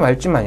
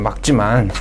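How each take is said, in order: First: The first syllable ends in an l sound. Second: The first syllable ends in a k sound. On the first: The speaker calls it wrong. "말지만 아니죠" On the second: The speaker calls it right. "막지만이 맞죠"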